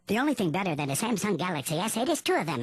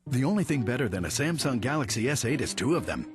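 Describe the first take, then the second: First: It is said in a squeaky helium voice. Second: It is said in a normal voice.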